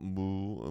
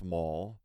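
First: The vowel is a long 'oo' as in 'pool'. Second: The vowel sounds like the one in 'full'. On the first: The speaker calls it wrong. "not Mool, Mool, like some people try to pronounce it" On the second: The speaker calls it right. "my last name is pronounced Mall"

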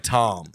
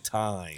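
First: The vowel is flattened, so it sounds like 'Tom'. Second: The vowel is a full glide, so it sounds like 'time'. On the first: The speaker calls it wrong. "I could not pronounce time. I would say Tom" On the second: The speaker calls it right. "I have to really stop everything. Say time"

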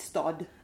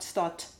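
First: The final D sounds voiced, like a D. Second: The final D sounds voiceless, like a T. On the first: The speaker calls it right. "It's stad" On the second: The speaker calls it wrong. "it's not stad"

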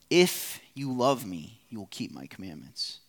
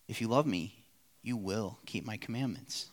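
First: It is said as a stern warning. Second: It is said as a reassuring promise.

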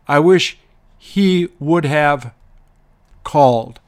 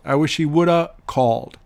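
First: Have is pronounced fully, at a slower pace. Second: Have is reduced to a quick 'a' sound.

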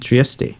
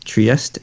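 First: The name is pronounced the Italian way. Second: The name is pronounced the German way. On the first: "depending on whether you are pronouncing it in German or Italian" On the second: "depending on whether you are pronouncing it in German or Italian"

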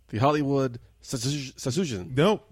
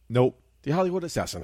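First: Assassin is said with an exaggerated foreign-style accent. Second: Assassin is said in a plain English pronunciation. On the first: The speaker calls it wrong. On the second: The speaker calls it right. "There you go"

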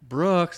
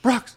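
First: The name is said at normal volume. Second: The name is shouted loudly.

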